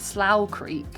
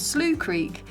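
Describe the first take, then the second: First: Slough is pronounced the British way. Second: Slough is pronounced the local way. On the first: "I pronounce it Slough Creek as a Brit" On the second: "but it's Slough Creek"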